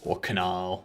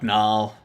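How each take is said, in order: First: The name begins with a k sound. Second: The name begins with an n sound.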